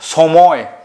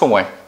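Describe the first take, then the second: First: The word begins with a sharp 's' sound. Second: The word begins with a soft 'sh' sound. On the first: The speaker calls it wrong. "কেউ আমরা বলি না সময়, এভাবে কেউ উচ্চারণ করে না" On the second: The speaker calls it right. "সবাই উচ্চারণ করে সময়"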